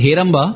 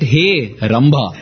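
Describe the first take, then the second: First: It is said as one joined word. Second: It is split into two separate words. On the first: It is a name of Ganesha. The speaker calls it right. "instead of calling it as Heramba" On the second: It calls out to a heavenly damsel. The speaker calls it wrong. "they used to make it Hey Ramba"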